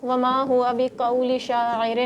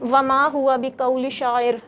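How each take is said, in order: First: Very slow, drawn-out recitation. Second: Slow Quranic recitation. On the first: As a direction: chant each word slowly. Verse recited again slower. (بہت آہستہ تلاوت) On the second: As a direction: recite it slowly, word by word. Student recites verse. (آہستہ تلاوت) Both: Real, not acted.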